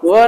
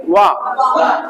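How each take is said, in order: First: व as a short v-like "va"; wrong W sound. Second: वाह as a rounded "wa"; correct W sound. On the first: Teacher showing the mistake for W, plain short व. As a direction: clip व short, without rounded lips. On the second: Teacher modelling the sound of W, rounded "wa" वाह. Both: Shown as a demonstration. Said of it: "व नहीं, वाह".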